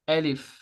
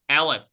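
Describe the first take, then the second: First: The name is said with an Arabic pronunciation. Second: The name is said with an English pronunciation. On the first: The speaker calls it right. "It sounds Arabic" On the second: The speaker calls it wrong. "it doesn't sound Aleph in English"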